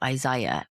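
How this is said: The name is said with a British pronunciation. "In England, we say"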